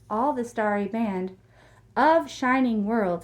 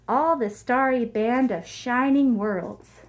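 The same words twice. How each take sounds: First: The phrase is broken up by a pause. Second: The phrase flows without any pause. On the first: The speaker calls it wrong. "notice how I didn't say" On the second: The speaker calls it right. "It's one sentence"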